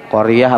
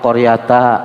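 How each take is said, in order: First: The word ends in a soft h sound. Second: The word ends in a t plus vowel. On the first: The speaker calls it right. "Yang betul qaryah" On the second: The speaker calls it wrong. "Apa qaryata?"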